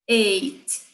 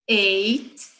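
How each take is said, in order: Both takes have the same delivery.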